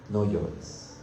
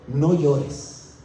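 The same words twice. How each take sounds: First: "no llores" repeated lower and much softer; soft tender repeat. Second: Said in the usual way. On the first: Acted. The elder gently hushes John's weeping, soft and tender. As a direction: let "no llores" fall away softly, like soothing a child.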